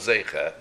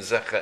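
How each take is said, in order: First: The first vowel sounds like 'ay'. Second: The first vowel sounds like 'eh'. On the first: "and the Tzere" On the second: "between the Segol"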